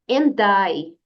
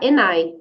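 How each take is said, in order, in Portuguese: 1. O som do d se liga suavemente à palavra seguinte. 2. O som do d é omitido, ficando só o n. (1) "diga and I" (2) "ignorar aqui o som da letra D e usar apenas o som da letra N"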